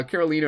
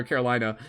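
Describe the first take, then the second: First: Carolina with "lee" in the middle, kʰɛɹəlĩnə; Carolina as Caro-lee-na. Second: Carolina with "lie" in the middle, kʰɛɹəlaɪnə; Carolina as Caro-lie-na. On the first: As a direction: say Carolina with a long ee. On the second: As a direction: say Carolina with a long eye sound. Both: Shown as a demonstration. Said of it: "am I saying your name right?".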